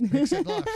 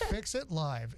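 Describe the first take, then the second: First: Big excited yell; loud high shout. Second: Said in the usual way. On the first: Pretend. Echoes catchphrase loudly, very high.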